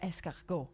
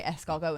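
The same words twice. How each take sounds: First: "escargot" softer, as an exaggerated counterexample; rejected pronunciation. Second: "escargot" as the speaker would say it; French-style pronunciation. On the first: Showing what they wouldn't say, exaggerated "escargot". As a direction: say "escargot" softly as the version to avoid. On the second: Showing own way with foreign words, French-style "escargot". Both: Shown as a demonstration. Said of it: "I wouldn't say it in".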